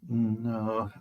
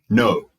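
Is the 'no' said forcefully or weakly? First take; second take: weakly; forcefully. First: The word is said softly and weakly. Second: The word is said forcefully and sharply. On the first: The speaker comes across as passive. "But saying no too weakly can seem passive" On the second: The speaker comes across as aggressive. "Saying no too strongly can come across as being aggressive"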